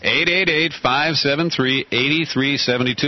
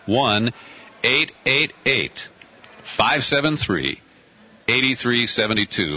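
First: The number is said at normal speed. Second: The number is said slowly.

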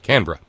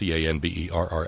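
First: The word is said with two syllables. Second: The word is said with three full syllables. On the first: The speaker calls it right. "but it ain't" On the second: The speaker calls it wrong. "It may look like three syllables"

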